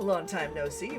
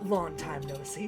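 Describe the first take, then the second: First: It is said in a lighter, less deep voice. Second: It is said in a deep, growling chest voice. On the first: "now I'm doing I'm doing Aqua's voice" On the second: "more deep masculine growling"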